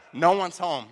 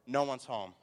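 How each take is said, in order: First: Very loud, gleeful announcement; triumphant shout. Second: Said in the usual way. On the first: Retold or imitated. Preacher retells second empty house, triumphant shout. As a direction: belt it out in mock triumph.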